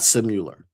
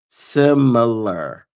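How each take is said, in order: First: The middle syllable has a 'yoo' sound. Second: The middle syllable has a plain short i sound. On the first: The speaker calls it wrong. "not similar. There is no U in the word" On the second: The speaker calls it right. "the word is similar"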